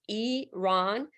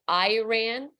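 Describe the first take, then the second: First: The first vowel is an E sound. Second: The first vowel is not an E sound. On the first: The speaker calls it right. "it's with an E" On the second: The speaker calls it wrong. "That is the incorrect pronunciation"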